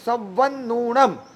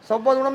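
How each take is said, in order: First: The v and n consonants are held doubled. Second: The consonants are said short, not doubled. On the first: The speaker calls it right. "વ double છે, ન double છે" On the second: The speaker calls it wrong. "સવનુણમ નહીં"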